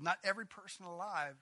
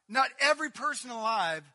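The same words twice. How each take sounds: First: Said in the usual way. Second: Loud and high, pressing the word every; loud preaching repeat. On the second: Acted. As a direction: proclaim it, hitting every. Repeated line, loud first take.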